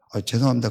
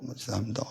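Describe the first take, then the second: First: Said in the usual way. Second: 죄송합니다 mumbled much softer, swallowed, rising at the end; grudging mumble. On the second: Retold or imitated. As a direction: mutter 죄송합니다 under the breath, grudgingly. Grudging apology, then leaves.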